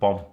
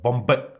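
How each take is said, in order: First: The final B is silent. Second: The final B is clearly sounded. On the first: The speaker calls it right. "the B is silent" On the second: The speaker calls it wrong. "the second B is not silent at all"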